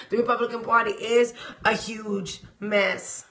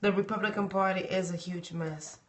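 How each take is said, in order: First: Said in the usual way. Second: "The Republican Party is a huge mess" said much softer, lower; softer repeat. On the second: Shown as a demonstration. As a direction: let the line sink, much softer than the first take.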